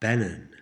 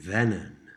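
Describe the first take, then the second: First: The word begins with a B sound. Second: The word begins with a V sound.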